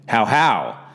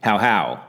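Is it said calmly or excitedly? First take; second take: excitedly; calmly. First: It is said as a loud exclamation. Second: It is said as a calm greeting.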